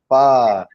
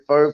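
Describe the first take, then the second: First: The vowel sounds like 'ah', rhyming with car. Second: The vowel sounds like 'oh', rhyming with go. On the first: The speaker calls it right. "no, it's far, far" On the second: The speaker calls it wrong. "I was going around calling it pho for a couple of years"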